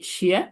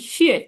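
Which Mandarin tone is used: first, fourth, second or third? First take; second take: second; fourth. First: The syllable is said with the second tone. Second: The syllable is said with the fourth tone. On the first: It means shoes. "Second tone অর্থ কি শিয়া" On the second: It means thanks. "চার নম্বর টোন শিয়ে"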